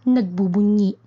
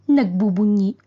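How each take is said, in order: The two takes are said the same way.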